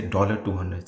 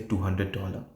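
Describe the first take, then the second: First: "dollar two hundred" with "dollar" leading; symbol read first. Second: "two hundred dollar" with "dollar" at the end; currency read last. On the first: Teacher showing the wrong currency reading, symbol first. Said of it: "don't say dollar two hundred". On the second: Teacher showing the right currency reading, amount first. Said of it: "say two hundred dollar". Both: Shown as a demonstration.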